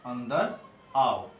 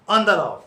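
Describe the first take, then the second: First: It is said plainly, without force. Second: It is said forcefully, with emphasis.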